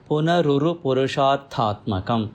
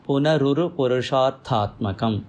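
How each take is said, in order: The two takes are said the same way.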